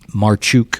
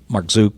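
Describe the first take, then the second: First: The name is said with a ch sound. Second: The name is said with a z sound. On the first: The speaker calls it right. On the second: The speaker calls it wrong.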